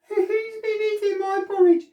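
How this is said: It is said in a tiny, high voice.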